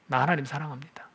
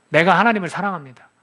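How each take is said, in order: First: Softer, hushed confession of love to God; a quiet, intimate prayer line. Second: Louder, with weight on 하나님을; firm declaration. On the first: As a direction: say it gently, almost to yourself. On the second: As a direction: declare it boldly to the room. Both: Shown as a demonstration. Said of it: "하나님, 나 사랑합니다".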